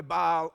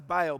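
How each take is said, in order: First: "Baal" with a broad ah, like "bahl"; alternative pronunciation. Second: "Baal" said like "bail"; "Baal" with an ay vowel, as in "bailed"; preferred pronunciation. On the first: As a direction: say "Baal" with an open ah vowel. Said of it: "Some people go Baal". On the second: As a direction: say "Baal" to rhyme with "sail". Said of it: "I say it's Baal because he bailed". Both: Shown as a demonstration.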